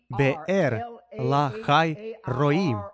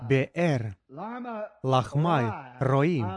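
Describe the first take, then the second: First: The middle word has no m sound: Lahai. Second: The middle word has an m sound: Lahmai. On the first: The speaker calls it right. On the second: The speaker calls it wrong.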